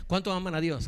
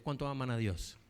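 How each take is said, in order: First: "¿Cuántos" pushed higher and louder; louder repeat. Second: Said in the usual way. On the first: Shown as a demonstration. Pastor repeats his question to the congregation, louder and higher. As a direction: repeat the question, raising it to rouse them.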